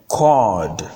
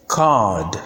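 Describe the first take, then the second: First: "cord" with rounded "aw" vowel; minimal pair. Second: "card" as "kahd", open vowel; minimal pair. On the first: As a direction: say "cord" carefully as "kawd". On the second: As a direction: say "card" carefully with long "ah". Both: Shown as a demonstration. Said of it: "Learn to pronounce the words correctly".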